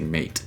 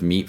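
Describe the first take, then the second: First: The vowel sounds like ay. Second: The vowel sounds like ee. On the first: This is the older pronunciation before the shift. "Before this time, words are still pronounced very differently... we say mate" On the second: This is the modern pronunciation. "Instead of meat"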